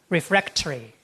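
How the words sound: It is said in a British accent. "But in British English"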